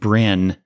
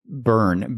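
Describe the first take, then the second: First: The name sounds like 'brin'. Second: The name sounds like 'burn'. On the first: The speaker calls it wrong. "I mispronounced his name" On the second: The speaker calls it right. "but it was actually Byrn, B Y R N"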